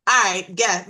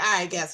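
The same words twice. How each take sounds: First: Louder, daring "All right, guess."; bold dare. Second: Said in the usual way. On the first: Retold or imitated. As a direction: toss it out as a challenge. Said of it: "So I said just like that". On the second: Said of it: "I was like".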